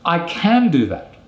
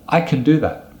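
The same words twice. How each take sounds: First: The word can is full and strongly stressed. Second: The word can is reduced and unstressed. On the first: The speaker insists on the ability against doubt. "So that's when you're going to use the strong form" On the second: The speaker simply states an ability. "So the can, we use a weak form"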